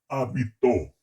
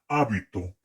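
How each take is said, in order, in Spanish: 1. El acento está en la tercera sílaba. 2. El acento está en la primera sílaba. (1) "pretérito perfecto simple" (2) "el nombre está en esdrújula"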